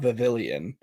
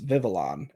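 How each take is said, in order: First: The ending sounds like 'pavilion', with 'ee'. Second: The ending has no 'ee' sound before 'on'. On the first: The speaker calls it wrong. "It's not Vivillon. It's not like Pavilion" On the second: The speaker calls it right. "There's no I, bro. It's Vivillon"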